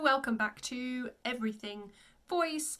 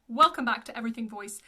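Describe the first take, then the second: First: It is said in an affected, showy presenter style. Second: It is said in a plain, natural speaking style. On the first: The speaker calls it wrong. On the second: The speaker calls it right.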